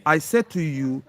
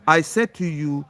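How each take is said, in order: Both takes have the same delivery.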